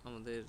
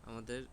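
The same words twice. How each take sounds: Both takes have the same delivery.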